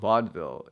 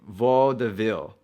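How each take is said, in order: First: The word is said with two syllables. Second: The word is said with three syllables. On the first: This is the American English pronunciation. "when we're talking about vaudeville, at least in American English" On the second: This is the French pronunciation. "I think they pronounce it vaudeville. That's three syllables"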